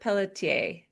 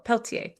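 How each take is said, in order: First: The middle vowel of the name is pronounced. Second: The middle vowel of the name is dropped. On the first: The speaker calls it wrong. "I'm going to guess it first" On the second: The speaker calls it right. "you don't say the E in the middle"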